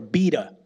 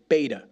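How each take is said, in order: First: It is said with a British pronunciation. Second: It is said with an American pronunciation.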